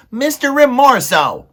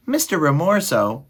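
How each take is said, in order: First: Very high, loud desperate mouse cry; shouting. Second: High-pitched timid mouse appeal; small mouse. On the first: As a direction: shout for the rat's attention, panicked. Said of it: "he shouted". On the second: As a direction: address the rat as a little mouse. Frightened mouse addresses the rat. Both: A narrator's reading.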